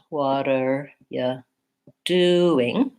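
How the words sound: The stress falls on the word doing. "the main stress is on do"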